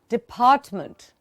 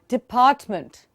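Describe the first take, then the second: The two takes are said the same way.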